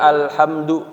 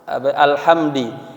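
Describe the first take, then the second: First: The word ends in a u vowel. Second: The word ends in an i vowel. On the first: "dengan dhammah pada huruf dalnya" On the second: "dengan kasrah"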